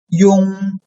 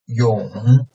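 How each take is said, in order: First: The pitch stays high and level. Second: The pitch dips low, then rises slightly.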